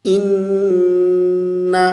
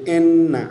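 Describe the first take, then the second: First: इन्ना chanted as in-na, long humming n; correct held noon. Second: इन्ना spoken short as en-na; wrong short reading. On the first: Teacher models for students, इन्ना with drawn-out hum. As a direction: recite इन्ना slowly, sustaining the nasal n. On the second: Teacher shows the mistake, इन्ना short and unchanted. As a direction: say इन्ना with e and no held n. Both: Shown as a demonstration. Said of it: "इसको यूं नहीं पढ़ेंगे".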